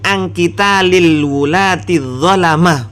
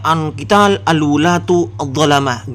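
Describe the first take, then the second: First: The word wulat- ends in an i vowel. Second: The word wulat- ends in a u vowel. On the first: The speaker calls it right. "Bacanya yang betul itu" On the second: The speaker calls it wrong. "Jangan dibaca"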